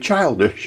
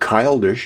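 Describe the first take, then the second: First: The word begins with a ch sound. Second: The word begins with a hard k sound. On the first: The speaker calls it right. "You say childish. It's not C. C H is ch" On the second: The speaker calls it wrong. "You don't say childish"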